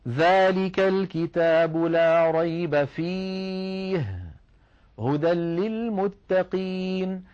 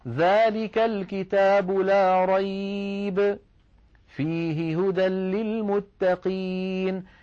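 First: The pause comes after the word fi-hi. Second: The pause comes before the word fi-hi.

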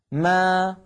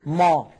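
First: The syllable is pronounced light, without raised tongue. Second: The syllable is pronounced heavy, with raised tongue. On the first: The speaker calls it right. "لا تجد بأن الميم يتجه هواؤها إلى سقف الحلق" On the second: The speaker calls it wrong. "وأن أضغط هواء الميم إلى سقف الحلق"

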